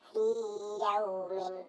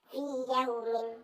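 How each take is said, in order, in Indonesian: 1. Vokal panjang dipertahankan sebelum y berikutnya. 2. Kedua bunyi y menyatu dan panjang vokalnya hilang. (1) "tapi dibaca fi yaumin, harus dibaca id idhar" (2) "nggak boleh kok dibaca"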